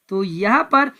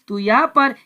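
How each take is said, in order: Both takes have the same delivery.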